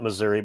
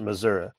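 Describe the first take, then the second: First: It is said the northern way. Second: It is said the rural Missouri way.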